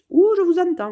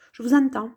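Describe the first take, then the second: First: Higher, louder "Ouh, je vous entends" with a falling Ouh; excited repeat. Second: Said in the usual way. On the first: Shown as a demonstration. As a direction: throw it out brightly, like a playful echo.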